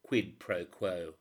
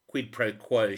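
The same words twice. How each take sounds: First: Slow, deliberate quid pro quo with a falling end. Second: A sudden loud bargaining demand; loud quid pro quo. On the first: Woman repeating her terms to a reporter, slow and deliberate. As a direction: spell out each word of the deal. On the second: Woman pressing a reporter to trade information, loud and firm. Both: A narrator's reading. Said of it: "she said".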